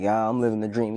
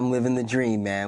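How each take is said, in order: First: It is said in a glum, sarcastic tone. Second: It is said in a perky, upbeat tone.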